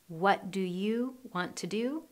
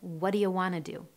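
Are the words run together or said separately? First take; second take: separately; run together. First: Each word is said separately and clearly. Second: The words are run together in reduced form.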